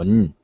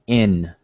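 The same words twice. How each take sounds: First: The letter is a bare consonant without a vowel. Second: The letter has a vowel sound before the consonant. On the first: The speaker calls it wrong. "Nobody pronounces it like that" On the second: The speaker calls it right. "They put a either an I before the N or an E vowel before the N"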